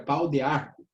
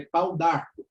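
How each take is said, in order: First: "pau de arco" with the E of "de" sounded; unelided "pau de arco", vowel kept after the D; full form. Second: "pau d'arco" with the E dropped, D joined to arco; slow "pau d'arco", no vowel after the D; elided form. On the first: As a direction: say "de" and "arco" as two words. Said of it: "que seria pau de arco". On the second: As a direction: run "d'arco" together as one word. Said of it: "indicar o desaparecimento de uma letra". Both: Shown as a demonstration.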